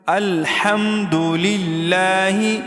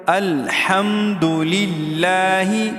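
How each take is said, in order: Both takes have the same delivery.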